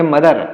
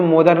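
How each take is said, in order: First: मदर opening on a short "muh"; correct mother pronunciation. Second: मोदर opening on a long "mo"; mispronounced mother. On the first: Teacher explains how it is really read, correctly pronounced मदर. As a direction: give मदर an unrounded short vowel. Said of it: "हम लोग पढ़ेंगे मदर". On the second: Teacher explains the spelling trap, mispronounced मोदर. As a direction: give मोदर a wrong rounded "o" vowel. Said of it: "इसको मोदर ना पढ़ के". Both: Shown as a demonstration.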